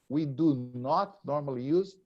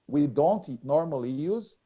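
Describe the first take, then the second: First: The negative is said in full and stressed. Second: The negative is contracted and unstressed. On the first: The negative meaning is emphasized. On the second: A plain negative statement.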